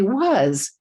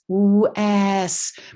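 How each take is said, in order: First: The vowel is said the usual everyday way. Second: The vowel is said as the spelling suggests. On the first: This is how people actually say the word. "we say was, just like that" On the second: This is how the word looks in writing. "this word looks like was"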